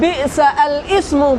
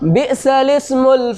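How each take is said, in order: First: The article starts with a separate glottal stop. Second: The article is linked without a glottal stop. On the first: The speaker calls it wrong. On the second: The speaker calls it right.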